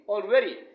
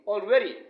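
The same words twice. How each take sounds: First: The stress is on the second syllable. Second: The stress is on the second syllable.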